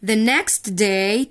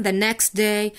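First: The next day drawn out slowly with a rise; teacher slowing right down on The next day; slow read. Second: Said in the usual way. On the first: Shown as a demonstration.

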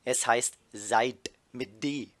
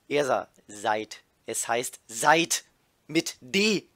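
First: Slow, pointed correction of the spelling of seid with a D; stern correction. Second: Louder and slow, hitting "seid" and "mit D" hard; irritated correction. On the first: Ersa correcting the new girl's grammar, slow and pointed. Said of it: "zuckt gefährlich mit dem Auge". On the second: Ersa correcting the same spelling again, louder and slow. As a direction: Ersa repeats herself, fed up, stressing "seid". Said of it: "nimmt noch mehr Abstand". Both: Acted.

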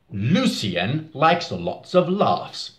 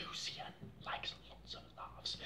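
First: Slow. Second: Unvoiced whisper. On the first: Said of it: "Can you say for me?". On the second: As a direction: whisper it softly. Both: Shown as a demonstration.

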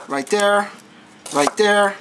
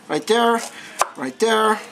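Both takes have the same delivery.

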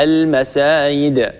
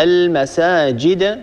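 First: المسايد slowly, with y in place of j; المسايد drawn out as al-masaayid; jim turned to ya. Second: المساجد slowly, with a clear j; المساجد drawn out as al-masaajid; correct jim. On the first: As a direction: glide a ي where the j belongs in المسايد. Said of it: "البعض ينطقها المسايد". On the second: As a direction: sound the ج fully in المساجد. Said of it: "أن نبدل الجيم ياء، مثلًا". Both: Shown as a demonstration.

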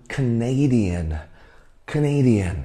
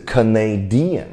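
First: Canadian slowly, stressed on NA, ca-NA-dian; stress on second syllable. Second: Canadian wrongly stressed on "di"; stress on third syllable. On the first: Teacher modelling the right stress, Canadian with second-syllable stress. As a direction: draw out the "nay" in Canadian, twice. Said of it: "重音在第二个音节". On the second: Teacher showing students why their guess sounds odd, Canadian with third-syllable stress. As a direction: say Canadian with the weight moved late, ca-na-DI-an. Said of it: "如果是三的话". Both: Shown as a demonstration.

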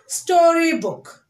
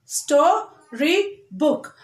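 First: Said in the usual way. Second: STORYBOOK broken as sto, ry, book; very slow STORYBOOK with a gap after each syllable; split into syllables. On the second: Shown as a demonstration. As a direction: say STORYBOOK one syllable at a time. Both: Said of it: "split the word here".

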